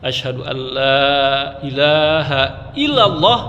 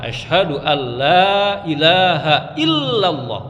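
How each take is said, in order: First: The l in illallah is single and short. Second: The l in illallah is doubled and held. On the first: There is no god to God. The speaker calls it wrong. "Nah itu salah" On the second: There is no god except God. The speaker calls it right. "Yang benar"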